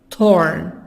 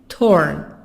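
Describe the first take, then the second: Both takes have the same delivery.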